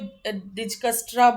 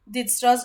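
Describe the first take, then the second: First: The k sound in the middle is pronounced. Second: The k sound in the middle is silent. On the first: "कोई कोई डिजकस्ट्रा बोल सकता है" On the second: "मैं तो के साइलेंट रखूंगी इसको"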